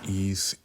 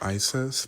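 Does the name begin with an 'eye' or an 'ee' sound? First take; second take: ee; eye. First: It begins with an 'ee' sound, like 'ease'. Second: It begins with an 'eye' sound, like 'eye-sis'. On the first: This is the pronunciation used as a Kabbalah mantra. "the way you would pronounce it for the Kabbalah is Ease" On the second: This is the ordinary reading of the name. "the way we would read it is Isis"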